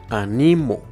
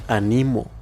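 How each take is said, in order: Both takes have the same delivery.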